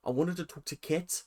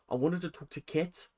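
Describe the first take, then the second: First: It is spoken in an imitated New Zealand accent. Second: It is spoken in an imitated New Zealand accent.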